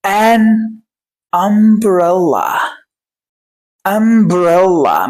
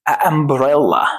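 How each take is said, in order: First: "an", pause, then very slow "umbrella"; نطق مفصل. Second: "a umbrella" lower, with two vowels colliding; نطق خاطئ. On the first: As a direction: stretch "umbrella" out syllable by syllable. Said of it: "أقول". ("an" ثم "umbrella" ببطء شديد) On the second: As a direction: say "a" with no N before "umbrella". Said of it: "ما أقولش". ("a umbrella" بلا نون) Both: Shown as a demonstration.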